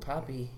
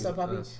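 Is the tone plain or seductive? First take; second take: seductive; plain. First: Said in a drawn-out, seductive tone. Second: Said in a plain, neutral tone. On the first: The speaker calls it right. "See the difference of that?" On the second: The speaker calls it wrong. "that doesn't sound sexual enough"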